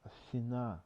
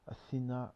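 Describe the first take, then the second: The two takes are said the same way.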